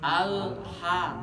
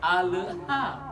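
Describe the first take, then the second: First: The 'l' is held cleanly before the 'h'. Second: The 'l' is released with an echoing bounce. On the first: The speaker calls it right. "tahan dulu lidahnya di atas. Al baru ha gitu" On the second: The speaker calls it wrong. "Jangan alha"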